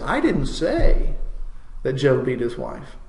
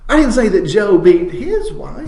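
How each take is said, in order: First: The word "say" carries the main stress. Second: The word "his" carries the main stress. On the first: The speaker implied it without saying it. "Now I'm implying it" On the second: It was someone else's wife. "it was his neighbor's wife that he knocked around"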